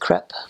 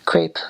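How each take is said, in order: First: It uses the French pronunciation. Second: It uses the common American pronunciation. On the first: The speaker calls it right. "but it's a crepe" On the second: The speaker calls it wrong. "People say crepe"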